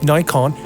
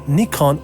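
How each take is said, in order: First: Nikon is pronounced the American way. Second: Nikon is pronounced in a non-American way.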